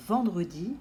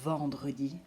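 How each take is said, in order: First: Said in the usual way. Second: "vendredi" with a long buzzing "vvv" at the start; exaggerated first sound. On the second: Shown as a demonstration. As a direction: hold the v before finishing "vendredi". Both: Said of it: "d'exagérer le début".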